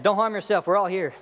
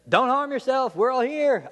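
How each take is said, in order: First: Light narrated shout; mild shout. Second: High-pitched urgent call; imitated shout, raised more in pitch than volume; acted shout. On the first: A narrator's reading. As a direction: read a shouted line with restraint. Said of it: "But Paul shouted". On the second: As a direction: call out to stop someone, high and pressing. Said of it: "Paul shouts in a loud voice".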